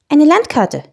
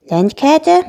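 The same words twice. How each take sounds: First: Said in the usual way. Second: "Landkarte" high, rising into a question; little dragon repeating "Landkarte" without understanding; puzzled echo. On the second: Acted. Dragon has never heard of a "Landkarte", puzzled echo. Dragon does not know the word.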